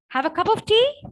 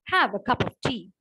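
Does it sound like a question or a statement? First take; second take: question; statement. First: It is said with a questioning tune. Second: It is said with a telling, statement tune. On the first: The speaker is asking whether they want tea. "So I'm asking a question there" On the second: The speaker is telling them to have tea. "So you're trying to tell them"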